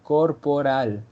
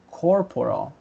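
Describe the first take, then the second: First: It is said with Spanish-style R and L. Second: It is said with English-style R and L.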